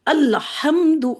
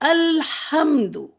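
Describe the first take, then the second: First: The l is pushed out with a bounce. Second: The l is held smoothly into the h. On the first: The speaker calls it wrong. "गलत इस तरह हो गया, अल को ऐसे करके छोड़ रहे हैं, पुश करके छोड़ रहे हैं" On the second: The speaker calls it right. "अल इसको छोड़ेंगे नहीं, हा पे पहुंच जाएंगे"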